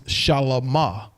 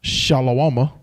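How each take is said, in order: First: The name has no 'wa' syllable in it. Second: The name has a 'wa' syllable in it. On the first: The speaker calls it right. "Solomon's name is Shalamah" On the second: The speaker calls it wrong. "not Shalawama"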